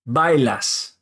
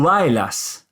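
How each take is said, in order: First: The b is hard, with the lips closing. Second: The b is soft, with the lips not touching.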